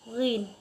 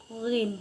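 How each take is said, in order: The two takes are said the same way.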